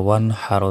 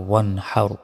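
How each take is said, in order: Both takes have the same delivery.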